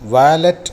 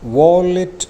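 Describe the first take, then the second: First: The first vowel sounds like 'ah'. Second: The first vowel sounds like 'aw'. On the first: The speaker calls it wrong. "ഉച്ചാരണം വാലറ്റ് എന്നല്ല" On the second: The speaker calls it right. "ഉച്ചരിക്കേണ്ടത് വോളിറ്റ് എന്നാണ്"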